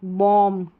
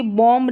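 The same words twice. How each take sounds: First: बॉम्ब as "bom"; silent b. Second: बॉम्ब with final b sounded; wrong pronunciation. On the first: Teacher correcting the word, बॉम्ब with b silent. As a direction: close बॉम्ब on m, no b. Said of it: "बी silent है". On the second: Teacher showing the error, audible b in बॉम्ब. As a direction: punch out the b ending of बॉम्ब. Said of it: "जैसे बॉम्ब नहीं". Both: Shown as a demonstration.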